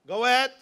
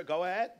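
First: A firm, louder invitation to speak; louder go ahead. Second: Said in the usual way. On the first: Shown as a demonstration. The old man told to speak, louder go ahead. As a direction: punch ahead louder, a little higher.

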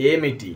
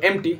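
First: "এমএটি" with the middle vowel sounded, e-mi-ti; full pronunciation. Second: "এমটি" run together as em-ti; shortened pronunciation. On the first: Teacher giving learners the actual Telugu word, full pronunciation. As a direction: say "এমএটি" in three full syllables. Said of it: "actually উচ্চারণ আসে". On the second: Teacher showing learners the other spoken form, shortened pronunciation. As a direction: drop the middle vowel in "এমটি". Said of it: "এক ভাষা বলে". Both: Shown as a demonstration.

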